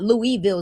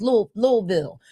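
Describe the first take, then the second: First: Louisville said as three clear syllables, Lou-ee-ville; wrong pronunciation. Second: Louisville squeezed to two syllables, Lou-vul; local pronunciation. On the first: Host showing viewers the wrong way, Louisville as Lou-ee-ville. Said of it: "it's not Louisville". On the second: Host teaching viewers the local way, Louisville as Lou-vul. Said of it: "We gotta say it right". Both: Shown as a demonstration.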